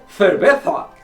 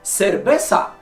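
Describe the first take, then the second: First: It begins with a soft 'th' sound. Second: It begins with an 's' sound. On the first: This is how people in Spain say it. "英語のTH のようなソフトな発音" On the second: This is how Latin Americans say it. "ラテンアメリカの人が…セルベサと発音する"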